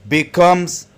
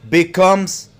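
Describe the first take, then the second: Both takes have the same delivery.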